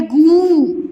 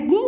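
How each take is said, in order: First: गु with a long loud oo; long vowel. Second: गु with a brief u; short vowel. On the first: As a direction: stretch गु into goooo. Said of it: "और ये है गु". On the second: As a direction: keep गु short. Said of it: "ये है गु और". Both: Shown as a demonstration.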